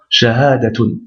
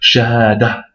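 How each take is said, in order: First: The word ends in a t sound with a vowel. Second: The word ends in a stopped h sound. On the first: More words follow and are read straight on. "le ta marbuta sera lu comme un ta, normal, avec sa voyelle" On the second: The word stands alone at the end of a sentence. "on lira le tamarbota comme un ha qu'on bloquera"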